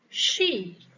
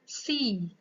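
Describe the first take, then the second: First: The word starts with a sh sound. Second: The word starts with a plain s sound. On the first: The speaker calls it right. "Maka she" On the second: The speaker calls it wrong. "Khusus she itu banyakan sh-nya tidak terdengar, hanya see"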